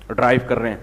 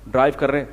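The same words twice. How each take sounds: The two takes are said the same way.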